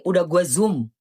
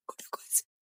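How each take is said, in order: First: Said in the usual way. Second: Whisper. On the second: Real, not acted. Repeat whispered to self.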